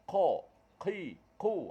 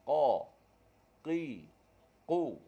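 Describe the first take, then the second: First: The consonants are released with a puff of air. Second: The consonants are released without any puff of air. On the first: The speaker calls it wrong. "salah lah, ada angin" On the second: The speaker calls it right. "Qaf tak ada angin. Bersih suara kita"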